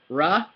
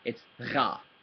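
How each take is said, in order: First: The r is smooth and made at the front. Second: The r is rough and made in the throat. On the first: The speaker calls it wrong. "instead of going ra" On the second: The speaker calls it right. "that same weird r in the back of your throat sound"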